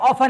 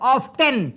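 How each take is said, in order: First: The t sound in the middle is silent. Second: The t sound in the middle is pronounced. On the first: The speaker calls it right. "ये ऑफन है" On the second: The speaker calls it wrong. "लोग बोलते ऑफ्टेन, ये ऑफ्टेन नहीं है"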